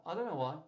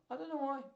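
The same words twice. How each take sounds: First: Said in the usual way. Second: "I don't know why" jumps much higher in pitch; exasperated squeak. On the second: Real, not acted. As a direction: sing it up high in mock despair. Repeats with exasperated rise.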